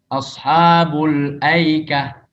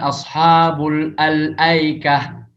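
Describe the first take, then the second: First: The article is dropped and the words run together. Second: The article 'al' is pronounced before 'aikah'. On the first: The speaker calls it right. "Kalau dibaca sambung wasal, maka hamzah al-ta'rifnya itu tidak terbaca" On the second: The speaker calls it wrong. "Jadi bukan"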